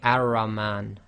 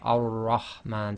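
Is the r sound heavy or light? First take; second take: light; heavy. First: The r is light and thin. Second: The r is heavy and thick. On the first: The speaker calls it wrong. "you don't say ar-rahman" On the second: The speaker calls it right. "you say ar-rahman. So that's thicker"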